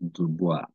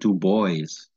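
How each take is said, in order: First: The name is said with French pronunciation. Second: The name is said with English pronunciation. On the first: The speaker calls it right. "This is actually a French name. It is pronounced Dubois" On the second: The speaker calls it wrong. "that's a strict English style pronunciation"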